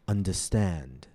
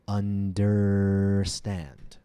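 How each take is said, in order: First: The first syllable has a plain vowel without r. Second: The first syllable has an r-colored er vowel. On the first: The speaker calls it wrong. "often mispronounced as understand" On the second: The speaker calls it right. "it should include the vowel er"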